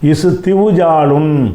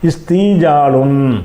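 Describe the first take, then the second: First: A w sound comes before the j. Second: A long ee comes before the j. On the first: The speaker calls it wrong. "என்று சொல்லாமல்" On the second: The speaker calls it right. "சொல்லாமல் இஸ்தீஜாலுன்"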